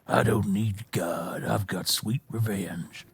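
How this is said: It is said in a gruff old cowboy voice.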